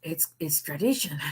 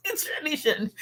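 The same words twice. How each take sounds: First: Said in the usual way. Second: Repeated through real laughter, much higher; laughing. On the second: Real, not acted. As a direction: laugh the words out.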